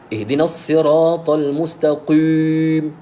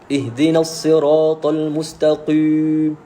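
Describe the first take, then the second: First: The final long vowel is pressed too heavily. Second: The same.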